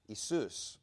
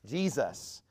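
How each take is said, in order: First: The name is said the Greek way, Iesous. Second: The name is said the English way. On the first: "in Greek, which is what the New Testament was written in, his name is Jesus" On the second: "And in English, we call it Jesus"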